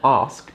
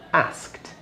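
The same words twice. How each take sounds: First: It is said with a southern English accent. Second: It is said with a northern accent. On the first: "the strong R sound I put at the beginning. That's because I'm from the south of England" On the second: "somebody that's from the north"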